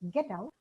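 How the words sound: It is said as a polite request. The listener is politely asked to leave. "it becomes a request"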